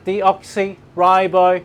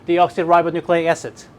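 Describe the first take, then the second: First: The term is broken into slow separate chunks. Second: The term is said quickly in one run. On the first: "give it some space between deoxy and ribo" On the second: "and then fast forward"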